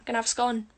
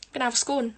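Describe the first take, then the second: First: "scone" rhyming with "con". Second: "scone" rhyming with "cone". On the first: Trying out the scone versions, "scone" as skon. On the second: Trying out the scone versions, "scone" as skohn. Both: Shown as a demonstration.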